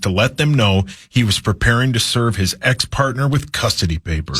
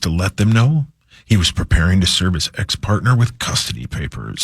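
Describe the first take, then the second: First: It is read in a plain, neutral tone. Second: It is read in a dark, ominous tone. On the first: "Put a little more drama into your voice" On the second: "Make it sound like uh, scary and depressing"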